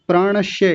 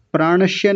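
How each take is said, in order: First: प्राणस्य said as प्राणश्य with a palatal श; wrong palatal sh. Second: प्राणस्य with a crisp dental स, not श; correct dental s. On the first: Retold or imitated. Teacher imitates students' error, प्राणस्य with palatal sh. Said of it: "तालव्य शकार लगा करके". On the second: Shown as a demonstration. Teacher corrects the student, प्राणस्य with dental s. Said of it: "प्राणस्य नहीं प्राणस्य".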